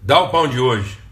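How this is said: It is said as a demand.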